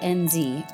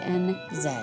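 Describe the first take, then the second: First: It is said in an American accent. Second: It is said in a New Zealand accent.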